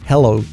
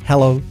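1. La h inicial es suave y aspirada. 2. La h inicial es suave y aspirada.

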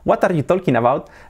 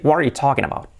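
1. Se pronuncia al estilo español. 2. Se pronuncia al estilo inglés. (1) "Yo antes hablaba" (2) "se puede decir"

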